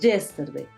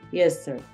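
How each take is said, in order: First: The word is said strongly and forcefully. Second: The word is said softly and lightly. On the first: The speaker calls it wrong. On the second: The speaker calls it right.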